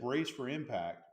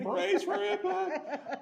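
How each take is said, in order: First: It is said flatly and matter-of-fact. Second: It is screamed in a panicked voice.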